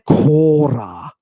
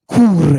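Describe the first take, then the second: First: The first vowel is a long o. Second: The first vowel becomes an oo sound. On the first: This is the Cretan form. "With that lengthened omega, the Cretan" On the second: This is the Ionian form. "Cure in the Ionian. Look at how much they changed the vowel"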